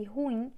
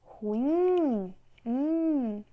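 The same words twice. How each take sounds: First: Said in the usual way. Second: RuIIIM, the IM long and swelling loud; stress on last syllable. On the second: Shown as a demonstration. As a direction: stretch the end of Ruim, then echo just that ending. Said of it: "a sílaba que tem mais força é a última".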